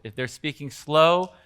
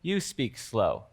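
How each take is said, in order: First: Said in the usual way. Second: Slow and soft, drawing the words out; slow speech. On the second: Shown as a demonstration. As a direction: demonstrate speaking slowly.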